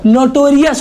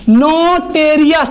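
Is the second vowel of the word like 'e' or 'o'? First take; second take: o; e. First: The second syllable has an 'o' vowel. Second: The second syllable has an 'e' vowel. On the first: The speaker calls it right. "नोटोरियस होता, ओ लगा के बोलना चाहिए" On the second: The speaker calls it wrong. "नोटेरियस नहीं, टेरियस नहीं होता"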